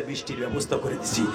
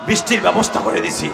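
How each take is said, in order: First: Said in the usual way. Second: Loud, forceful declaration; emphatic shout. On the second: Acted. God tells Musa of the rain, shouted proclamation. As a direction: shout the announcement out. God's answer repeated forcefully.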